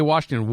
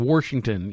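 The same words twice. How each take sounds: First: Said in the usual way. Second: "Washington" as "Warshington", R before the sh; intrusive R. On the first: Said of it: "or you say Washington". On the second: Shown as a demonstration. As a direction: put an extra R in the first syllable of "Washington". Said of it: "they throw an R in there".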